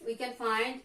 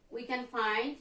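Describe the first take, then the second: No difference in how they are said.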